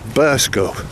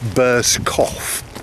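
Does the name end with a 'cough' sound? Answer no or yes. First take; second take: no; yes. First: The name does not end with 'cough'. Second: The name ends with the word 'cough'. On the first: The speaker calls it right. "in actual fact it's pronounced Burscough" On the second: The speaker calls it wrong. "It looks like Bear's Cough"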